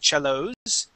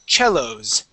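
First: The stress is on the last syllable. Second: The stress is on the first syllable. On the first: The speaker calls it wrong. "We wouldn't add the emphasis to the end of the word" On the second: The speaker calls it right. "the accent is at the very beginning"

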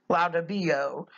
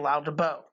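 First: The ending has an extra i sound: bio. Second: The ending has no i sound: bo. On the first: The speaker calls it wrong. "sounds terrible" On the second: The speaker calls it right. "Drop off the E in it, or the I, and it sounds good"

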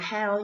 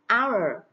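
First: The word starts with an audible h sound. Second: The word starts with a silent h. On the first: The speaker calls it wrong. "Các bạn không được đọc là how nhé, how là sai" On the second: The speaker calls it right. "H câm, từ H không được phát âm nhé"

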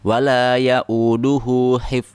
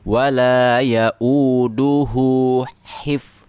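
First: Both h sounds are said the same way. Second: The two h sounds are said differently, slowly. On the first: The speaker calls it wrong. "Jadi semuanya huruf H padahal salah satunya adalah berbeda" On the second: The speaker calls it right. "kita juga pelankan"

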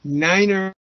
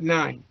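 First: The word has two syllables, ending in er. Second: The word has one syllable, ending in n. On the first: The speaker calls it right. "Niner, not nine" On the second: The speaker calls it wrong. "not nine"

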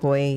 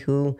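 First: The vowel glides toward 'oy', like 'hoy'. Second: The vowel is a plain 'oo', like 'who'. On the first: This is the speaker's own way of saying it. "I say it" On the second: This is how the other person says it. "you say who"

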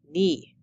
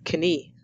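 First: The K sound is silent. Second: The K sound is pronounced. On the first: The speaker calls it right. "The K is silent" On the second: The speaker calls it wrong. "not knee"

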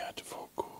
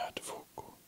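The two takes are said the same way.

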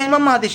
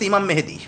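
First: The name is said as 'Mahadi' with a-vowels. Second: The name is said as 'Mehedi' with e-vowels. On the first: The speaker calls it right. "হওয়ার কথা ইমাম মাহাদি" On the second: The speaker calls it wrong. "সে বলতেছে ইমাম মেহেদি। উচ্চারণ তো ঠিক মতো করতে পারে না।"

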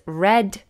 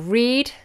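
First: The word sounds exactly like 'red'. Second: The word does not sound like 'red'. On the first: The action happened in the past. "in the past tense, it is read" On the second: The action happens now. "So you read"

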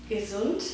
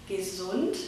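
The two takes are said the same way.

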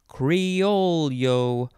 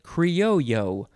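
First: An L sound is heard in the middle. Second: No L sound is heard in the middle.

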